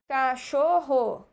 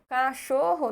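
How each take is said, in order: First: Cachorro said slowly, syllable by syllable; syllables spelled out. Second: Said in the usual way. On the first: Shown as a demonstration. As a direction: tap out each syllable of cachorro. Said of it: "pensar numa palavra que tenha quatro sílabas". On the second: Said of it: "Cachorro só tem três".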